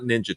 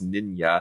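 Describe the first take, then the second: First: The middle consonant is a 'j' sound. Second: The middle consonant is a 'y' sound. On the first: The speaker calls it wrong. "but it's not Ninja Tyberg" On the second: The speaker calls it right. "It's Ninya"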